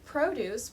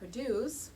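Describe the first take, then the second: First: The stress is on the first syllable. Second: The stress is on the second syllable. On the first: It is a noun meaning vegetables. "with the stress on the first syllable refers to vegetables" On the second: It is a verb meaning to make. "with the stress on the second syllable is the verb"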